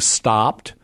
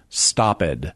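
First: The word is said as one syllable. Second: The ending is said as a separate syllable. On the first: This is the modern pronunciation. "instead of saying stopped" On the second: This is the older pronunciation. "at one point we would have said stopped"

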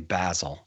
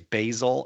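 First: The word is given its personal-name pronunciation. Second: The word is given its herb pronunciation. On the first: It refers to a person. "if it's a person, you say Basil" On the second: It refers to the spice. "if it's a spice, you say basil"

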